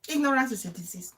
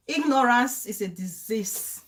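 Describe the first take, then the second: First: Faster, softer throwaway repeat; quick soft repeat. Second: Slow emphatic. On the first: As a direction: toss it off quickly. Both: Shown as a demonstration. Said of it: "repeated for emphasis".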